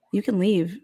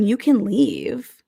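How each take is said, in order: First: Said in the usual way. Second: You can leave drawn out slowly, stressing can; slow pointed warning. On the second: Pretend. To Sean threatening to leave, slow pointed warning. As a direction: drag it out as a dare. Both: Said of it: "then I'd be hella pissed".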